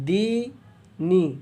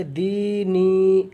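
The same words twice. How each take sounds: First: دینی with both long i vowels stretched slowly; دینی said slowly, every long i held; long vowels drawn out. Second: Said in the usual way. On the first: Shown as a demonstration. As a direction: draw out each vowel in دینی one beat. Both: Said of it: "ایک ایک الف کے برابر کھینچ کے پڑھیں گے".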